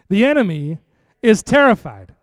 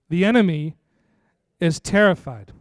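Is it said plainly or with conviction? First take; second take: conviction; plainly. First: It is said with strong conviction. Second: It is said plainly, without strong conviction.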